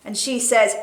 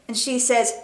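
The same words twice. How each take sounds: The two takes are said the same way.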